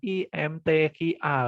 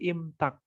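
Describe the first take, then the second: First: Each letter is said separately. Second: It is said as a single word. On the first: The speaker calls it wrong. "jangan I-M-T-Q-A kayak gitu, jangan jangan dibaca seperti itu" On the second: The speaker calls it right. "Jadi imtak kayak gitu"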